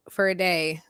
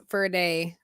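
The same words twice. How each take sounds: The two takes are said the same way.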